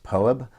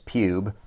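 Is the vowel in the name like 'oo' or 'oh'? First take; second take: oh; oo. First: The name is said with an 'oh' vowel. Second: The name is said with an 'oo' vowel. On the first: This is believed to be the proper pronunciation. The speaker calls it right. "I believe it's pronounced Poeb" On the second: This is a joking personal pronunciation. The speaker calls it wrong. "I always like to pronounce as Pube"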